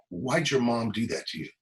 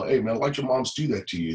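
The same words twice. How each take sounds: First: Said in the usual way. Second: Put-on light street-talk accent. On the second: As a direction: quote it in casual street talk. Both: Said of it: "he said it in street talk".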